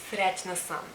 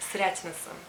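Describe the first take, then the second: No difference in how they are said.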